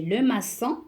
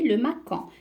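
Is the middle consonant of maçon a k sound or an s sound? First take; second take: s sound; k sound. First: The middle consonant is a soft s sound. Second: The middle consonant is a hard k sound. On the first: The speaker calls it right. "Mais non, c'est le maçon" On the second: The speaker calls it wrong. "si on n'ajoute pas la cédille, elle va se prononcer le macan"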